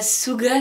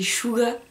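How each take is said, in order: First: The name begins with a plain s sound. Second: The name begins with an sh sound. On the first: The speaker calls it wrong. "C'est pas Suga" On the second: The speaker calls it right. "c'est [name], je crois"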